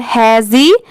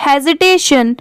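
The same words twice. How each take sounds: First: Hesitation in separate syllables; hesitation split up. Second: Said in the usual way. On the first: Shown as a demonstration. Teacher dividing a big word for learners, hesitation split up. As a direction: break hesitation into he-zi, tay, shun. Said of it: "ऐसे ही आप divide कर लीजिएगा". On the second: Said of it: "ऐसे आप पढ़ सकते हैं".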